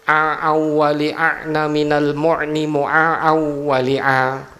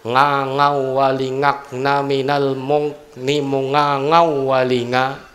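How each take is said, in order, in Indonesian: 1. Konsonannya berbunyi ain dari tenggorokan. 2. Konsonannya diganti dengan bunyi ng. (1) "Untuk ain" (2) "Bisanya ngangawali"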